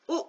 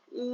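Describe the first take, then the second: First: उ said short, one quick beat; short vowel u. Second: उ held for double length; long vowel uu. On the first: Teacher contrasting vowel lengths: short उ said quickly. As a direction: clip उ off briefly. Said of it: "ये बहुत कम समय लेता है". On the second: Teacher contrasting vowel lengths: long उ held longer. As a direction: draw उ out over two beats. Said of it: "दोगुना समय ज्यादा लेता है". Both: Shown as a demonstration.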